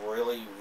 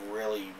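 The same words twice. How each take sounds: The two takes are said the same way.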